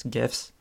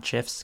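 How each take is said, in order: First: "gifs" said with a hard g, as in "gift"; hard-g pronunciation. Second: "gifs" said with a soft g, like "jifs"; soft-g pronunciation. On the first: Podcaster correcting to the preferred pronunciation, "gifs" with hard g. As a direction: start "gifs" with a hard G sound. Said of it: "not gifs". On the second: Podcaster rejecting the other pronunciation, "gifs" with soft g. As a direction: say "gifs" starting with a J sound. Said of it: "not gifs, gifs". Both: Shown as a demonstration.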